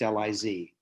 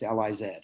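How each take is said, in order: First: The last letter is said as zee. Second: The last letter is said as zed.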